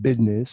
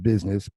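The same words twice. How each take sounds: First: It is said in a put-on drawling accent. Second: It is said in a plain everyday accent. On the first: "So I said business" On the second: "instead of business"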